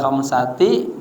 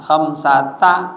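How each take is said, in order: First: The word ends in an 'i' vowel. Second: The word ends in an 'a' vowel. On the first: The speaker calls it wrong. "kagak boleh khamsati" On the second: The speaker calls it right. "dibacanya mabni atas fathah"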